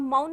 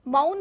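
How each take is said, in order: First: मौन broken into म then औन, slowly; मौन pulled apart, म and औ said separately; split syllables. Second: Said in the usual way. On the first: Shown as a demonstration. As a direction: say मौन as two parts, म and औन, the wrong way. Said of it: "म अलग से बोल दिया और औ अलग से बोल दिया". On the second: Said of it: "म अलग से बोल दिया और औ अलग से".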